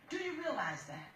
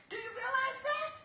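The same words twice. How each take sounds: First: Softer question, falling steadily at the end; pointed repeat. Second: High-pitched challenge, rising at the end; insistent questioning. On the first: Judge repeats the question more quietly. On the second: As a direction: press the question, voice pitched right up. Judge presses the daughter, first asking. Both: Real, not acted.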